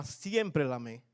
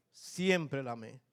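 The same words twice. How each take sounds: First: Said in the usual way. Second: Slow, soft and heartfelt; lento y sentido. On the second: Real, not acted. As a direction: say it slowly, meaning every word. Repite más lento y suave. (despacio y con ternura)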